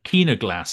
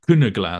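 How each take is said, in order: First: The first vowel sounds like 'ee'. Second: The first vowel does not sound like 'ee'. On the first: The speaker calls it wrong. "So the Y is not pronounced like an E, but he pronounces it like that" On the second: The speaker calls it right. "but it should be like Kunaglass"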